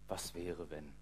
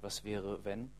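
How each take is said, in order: First: It is said with resigned, hopeless dejection. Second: It is said with joyful, eager expectation. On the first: The speaker has given up hope. "Resignation, Trostlosigkeit, Hoffnungslosigkeit" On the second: The speaker looks forward to a possibility. "Und hat diese freudige Erwartung"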